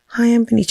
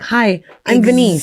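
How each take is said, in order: First: It is said in an unclear, mumbled way. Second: It is said clearly and well articulated.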